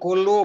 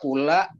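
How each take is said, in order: First: The word ends with a u vowel. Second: The word ends with an a vowel. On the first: The speaker calls it right. "bacanya kulu" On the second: The speaker calls it wrong. "masa kula?"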